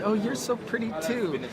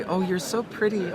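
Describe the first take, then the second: First: High-pitched mock girly compliment back; imitated rival's sugary comeback; fake-nice reply. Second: Higher-pitched mock girly compliment; put-on sugary niceness; fake sweetness. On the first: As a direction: return the compliment with insincere sweetness, pitched well up. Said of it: "just a nice way to say". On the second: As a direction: gush insincerely, imitating a girl flattering her rival. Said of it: "It's so fake".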